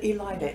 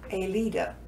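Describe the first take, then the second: First: The name has an English-style pronunciation. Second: The name has a Spanish-style pronunciation. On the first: This is how people around her said it. The speaker calls it wrong. "They pronounced it Elida" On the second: This is how her parents meant it to be said. The speaker calls it right. "It should be Anna Elida, Spanish pronunciation"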